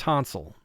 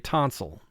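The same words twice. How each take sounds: First: The second vowel is reduced to a schwa. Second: The second vowel is reduced to a schwa.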